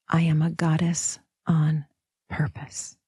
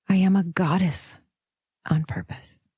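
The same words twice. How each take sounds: First: The stress is on "purpose". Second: The stress is on "goddess".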